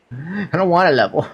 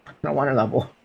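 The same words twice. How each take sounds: First: Higher whining complaint, dragged out; whiny. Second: Said in the usual way. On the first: Acted. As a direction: whine like a bored kid.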